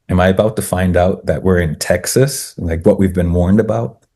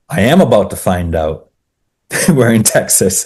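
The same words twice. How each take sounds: First: "Am I about to find out" asked as a question, rising on "Texas"; wondering question. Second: "am" punched high, as a statement; emphatic realisation. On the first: Walker wonders about the Texan's warning, questioning tone. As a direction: ask it with "Texas" lifting at the end. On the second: Walker realises the warning is real, emphatic "am". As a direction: stress "am" hard, with a small laugh before "we're in Texas". Question turned into amused realisation. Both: Retold or imitated.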